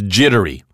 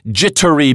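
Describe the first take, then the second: First: The double T is said as a soft tap. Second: The double T is said as a crisp T.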